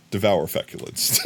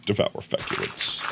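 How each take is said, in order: First: Laughing. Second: Low, whispered deadpan movie line; flat ominous trailer growl. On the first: Real, not acted. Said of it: "saying devour feculence". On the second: Retold or imitated. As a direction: intone it like a horror trailer. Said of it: "in that voice".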